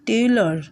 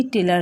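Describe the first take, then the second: First: টেইলর as "tey-lor", rounded ending; English pronunciation. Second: টেইলর read as "te-lar", open A at the end; spelling-style "te-lar" for টেইলর; as written. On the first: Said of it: "উচ্চারণ যখন হবে ইংরেজি". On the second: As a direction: say টেইলর with a plain "lar" ending. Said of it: "লেখা থাকে". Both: Shown as a demonstration.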